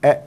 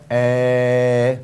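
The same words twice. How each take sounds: First: Said in the usual way. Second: "哎" drawn out as one long, level vowel. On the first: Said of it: "拉长". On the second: Shown as a demonstration. Teacher showing students the long vowel, "哎" drawn out. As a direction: hold "哎" long and steady. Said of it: "也可以拉长".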